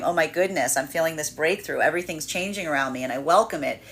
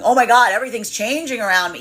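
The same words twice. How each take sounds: First: Calm open delight at the change; welcoming, expansive. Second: Higher, louder panicked take of the line; hammed-up panic, voice jumping up; mock terrified. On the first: Retold or imitated. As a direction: say it as good news you embrace. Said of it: "this could be feeling expansive". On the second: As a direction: blurt it out in alarm at the change. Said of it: "or this could be fearing, feeling terrifying".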